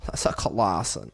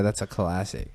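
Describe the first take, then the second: First: "classic" stretched into a slow "cuh-lah-sun"; comic drawn-out CLASSIC. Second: Said in the usual way. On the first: Acted. Comic re-saying of the phrase.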